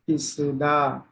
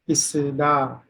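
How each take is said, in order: First: The middle consonant is an s sound. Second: The same.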